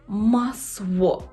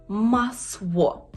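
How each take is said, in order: The two takes are said the same way.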